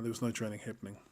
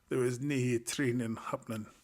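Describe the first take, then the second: First: It is said in the speaker's usual accent. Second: It is said in a put-on Scottish accent.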